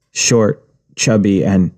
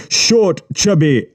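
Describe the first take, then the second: First: Said in the usual way. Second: Short, chubby said high and mocking; scornful quoting. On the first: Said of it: "repeated by Yubi". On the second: A narrator's reading. Yubi mocking the boy's words, high and scornful. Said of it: "Short, chubby, and, (repeat)".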